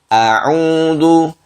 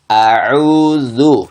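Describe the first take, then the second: First: The u vowel has unrounded, ordinary lips. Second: The u vowel has strongly rounded lips. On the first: The speaker calls it wrong. "Jangan dibaca" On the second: The speaker calls it right. "tapi ... sempurna seperti itu"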